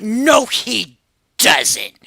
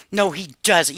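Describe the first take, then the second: First: Slow, stretched-out no way; drawn-out disbelief. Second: Said in the usual way. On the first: Retold or imitated. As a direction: drag it out like you can't believe it. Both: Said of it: "You probably heard that in my voice".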